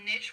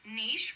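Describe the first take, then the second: First: The vowel is a short i sound. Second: The vowel is a long ee sound. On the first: "which rhymes with the word pitch" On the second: "rhymes with the word sheesh"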